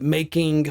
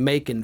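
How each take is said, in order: First: The final g sound is pronounced clearly. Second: The final g sound is dropped. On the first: "words that have G's, like making" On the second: "shave the G off"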